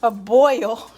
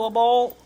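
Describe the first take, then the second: First: Louder Chicago accent on boil. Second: Said in the usual way. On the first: Shown as a demonstration. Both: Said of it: "My Chicago accent".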